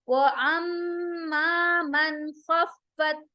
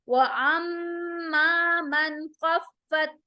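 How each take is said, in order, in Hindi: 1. 'man' में n नाक से निकलता है और लंबा रहता है। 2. 'man' में n साफ़ और छोटा है।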